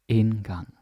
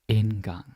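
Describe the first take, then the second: No difference in how they are said.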